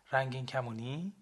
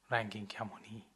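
First: «رنگین کمونی؟» asked with a rising end; rising question on «رنگین کمونی؟»; curious question. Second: «رنگین کمونی.» stated with a falling end; flat affirming answer «رنگین کمونی.»; calm confirmation. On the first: Asking about the rainbow wristband. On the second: Confirming answer, same words. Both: Acted.

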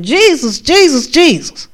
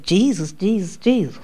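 First: Calling on Jesus, rising higher and higher; desperate calling out. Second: Mocking imitation. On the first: Retold or imitated. Pinned down in a dream, calling on Jesus. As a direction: cry out for help, pitch climbing. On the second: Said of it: "The thing mocked me".

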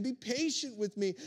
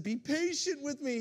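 First: Mild plea, barely lifted; a light hint of begging. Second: Begging. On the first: Fellow servant pleading on his knees, understated beg. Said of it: "begged him". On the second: Acted. Servant pleading with his master, mild mock begging. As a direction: beg the master for patience. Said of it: "he begged".

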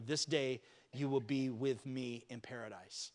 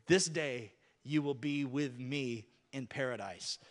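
First: Slow quiet promise. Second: Gentle promise. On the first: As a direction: lower and softer, each word weighed. Preacher repeats Jesus' line. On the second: Jesus speaks to the thief. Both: Acted.

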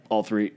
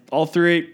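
First: Low, soft retold confession; small, embarrassed answer; sheepish admission. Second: Higher, more audible admission; owning up the second time; retold repeated answer. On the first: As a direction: drop it low, almost under your breath. Sheepish first answer, then repeated. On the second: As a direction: repeat it with the pitch lifted. Repeats answer after "Excuse me?.

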